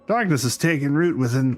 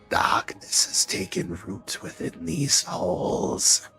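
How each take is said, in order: First: It is read in a plain voice. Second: It is read in a spooky voice.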